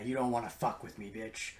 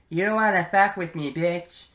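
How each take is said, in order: First: The voice is deep and ominous. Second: The voice is higher and sounds young. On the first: The character sounds threatening. The speaker calls it right. "deep and ominous" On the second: The character does not sound threatening. The speaker calls it wrong. "he doesn't sound very intimidating"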